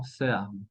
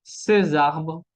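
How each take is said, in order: First: Ces arbres with silent s; ces, then arbres, unlinked; missing liaison. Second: Ces arbres linked with a z; liaison. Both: Shown as a demonstration. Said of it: "y no ces arbres".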